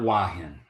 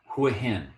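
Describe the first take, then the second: First: The name begins with a W sound, no H. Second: The name begins with a clear H sound. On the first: The speaker calls it wrong. "not Wahin" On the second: The speaker calls it right. "it starts with an H"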